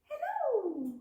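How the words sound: It is said in a very high voice.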